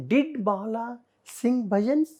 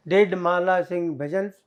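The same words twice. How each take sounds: First: "Did Mala sing bhajans" lifting into a questioning rise; interrogative intonation. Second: Deaden the question "Did Mala sing bhajans", little pitch movement; dead intonation. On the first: Teacher showing class how a question sounds, interrogative intonation on "Did Mala sing bhajans". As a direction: raise the pitch on "bhajans" as a real question. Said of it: "interrogative intonation is there". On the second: Teacher showing what is wrong, dead intonation on "Did Mala sing bhajans". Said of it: "Yes, it is dead". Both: Shown as a demonstration.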